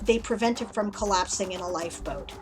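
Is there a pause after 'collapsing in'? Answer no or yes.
no. There is no pause after "collapsing in." The collapsing happens inside a lifeboat. "If you didn't have the comma"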